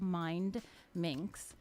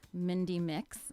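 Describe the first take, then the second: First: The first word has one syllable, Mind. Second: The first word has two syllables, like Mindy. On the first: The speaker calls it right. "it's two words together" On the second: The speaker calls it wrong. "they'll say it's Mindy"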